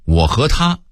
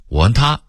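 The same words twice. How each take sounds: First: Said in the usual way. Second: "和"念成"汗"，"他"尾音上扬; 北京腔说"我和他"; Beijing pronunciation. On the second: Shown as a demonstration. (北京话变音说"我和他") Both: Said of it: "北京人会说".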